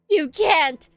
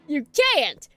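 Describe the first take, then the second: First: It is said in the reader's normal voice. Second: It is said in a put-on character voice.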